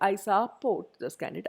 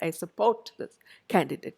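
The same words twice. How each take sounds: First: Support is stressed on its first syllable. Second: Support is stressed on its second syllable. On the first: The speaker calls it wrong. "I don't say I support this candidate" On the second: The speaker calls it right. "So that's a verb"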